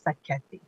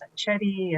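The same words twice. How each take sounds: First: "Sacchetti" with a hard k, sa-KET-ee; ethnic pronunciation. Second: "Sacchetti" with a ch sound, sa-CHET-ee; anglicized pronunciation. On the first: Woman showing hearing officials her surname, ethnic "Sacchetti" with k sound. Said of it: "the ethnic, uh, pronunciation". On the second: Woman showing hearing officials her surname, anglicized "Sacchetti" with ch sound. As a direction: say "Sacchetti" anglicized, "cch" as in chess. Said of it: "Now the anglicized version is". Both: Shown as a demonstration.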